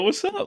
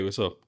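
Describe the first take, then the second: First: It is said with lively, upbeat energy. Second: It is said in a flat monotone. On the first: The speaker is in a playful, silly mood. "normally I'd be like" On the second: The listener thinks something is wrong. "I didn't feel like being silly"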